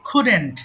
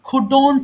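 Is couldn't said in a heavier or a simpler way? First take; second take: simpler; heavier. First: The word is said simply, with the ending released lightly. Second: The word is said in a heavier, overpronounced way. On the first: The speaker calls it right. "It's just couldn't. Simply ছেড়ে দিবেন।" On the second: The speaker calls it wrong. "এটা অনেকে ভুল করে couldn't বলে।"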